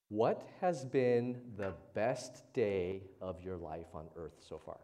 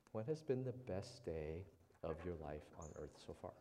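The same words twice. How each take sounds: First: Slow, emphatic question. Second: Said in the usual way. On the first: Shown as a demonstration. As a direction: stretch each word out slowly and louder. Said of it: "I have a question for you". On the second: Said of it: "just think about it".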